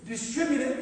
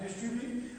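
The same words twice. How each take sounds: First: "Distribute" said cleanly and firmly, a bit louder; "Distribute" stated carefully and clearly; "Distribute" fixed, crisp and louder; corrected pronunciation. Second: "Distribute" said the same slipped way; "Distribute" stumbled on again; "Distribute" with the slip kept; mispronounced word. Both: Shown as a demonstration. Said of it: "I did it again".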